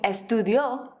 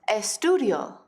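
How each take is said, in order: First: The stress is on the last syllable. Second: The stress is on the second-to-last syllable.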